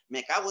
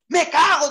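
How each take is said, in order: First: Said in the usual way. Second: Loud, high shocked curse; a gaucho's loud jolt of alarm; startled yelp. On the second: Acted. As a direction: blurt it out in sudden fright. Sopaleza startled by plane altitude.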